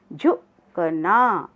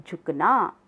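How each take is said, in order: First: झुकना stretched as झु-क-ना; slow syllable reading. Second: Said in the usual way. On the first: Shown as a demonstration. (झुकना धीरे-धीरे अक्षर तोड़कर) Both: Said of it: "साथ साथ बोलेंगे सब".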